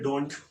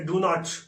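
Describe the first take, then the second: First: It is said as one contracted word. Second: It is said as two full words.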